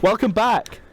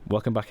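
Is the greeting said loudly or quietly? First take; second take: loudly; quietly. First: The greeting is said at a louder volume. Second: The greeting is said at a quieter volume.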